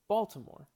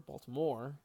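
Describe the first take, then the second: First: The stress is on the first syllable. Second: The stress is on a later syllable. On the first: The speaker calls it right. "We say Baltimore. We, we really stress the first syllable" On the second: The speaker calls it wrong. "or Baltimore"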